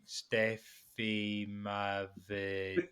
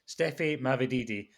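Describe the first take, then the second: First: It is said very slowly. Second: It is said at normal speed.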